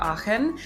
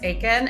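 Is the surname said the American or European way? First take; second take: European; American. First: The surname is said with a European pronunciation. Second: The surname is said with an American pronunciation. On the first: "when I'm in Europe, people will pronounce it as" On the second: "when I'm in America, it's"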